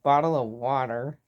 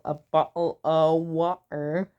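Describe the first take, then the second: First: It is said in an American accent. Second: It is said in a British accent.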